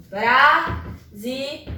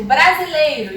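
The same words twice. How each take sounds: First: "brasileiro" slowly broken into bra, si, lei, ro; syllable by syllable. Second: Said in the usual way. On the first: Shown as a demonstration. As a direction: leave a clear pause between syllables of "brasileiro". ("brasileiro" sílaba por sílaba, devagar: bra, si, lei, ro) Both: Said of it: "eu separo a sílaba".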